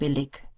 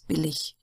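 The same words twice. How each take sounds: First: The ending is a hard, stop-like sound. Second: The ending is a soft, hissing ich sound. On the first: "Sometimes you may hear people saying" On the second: "usually it's"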